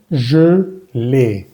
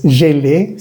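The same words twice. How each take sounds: First: "je" with rounded, closed French schwa, then é; slow "je ... l'ai", lips rounded on first vowel; correct rounded schwa. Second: "je" said with open Spanish E, like "yé-lé"; wrong open E. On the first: Teacher corrects learners, "je" with rounded schwa before é. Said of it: "sino je l'ai". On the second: Teacher shows learners the mistake, "je" with open é. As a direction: mispronounce "je l'ai" with both vowels as é. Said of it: "No es je l'ai". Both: Shown as a demonstration.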